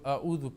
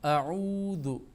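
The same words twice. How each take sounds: First: The vowel is cut short and rushed. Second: The vowel is held for one full beat. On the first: The speaker calls it wrong. "कई लोग ऐसे पढ़ते जो आऊज़ु पढ़ते हैं" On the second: The speaker calls it right. "इसको हमने एक अलिफ के बराबर आऊज़ु"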